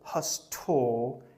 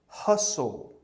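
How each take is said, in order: First: The T sound is pronounced in the word. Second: The T sound is left out of the word. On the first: The speaker calls it wrong. "Don't say" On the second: The speaker calls it right. "we can take out the T and the E here"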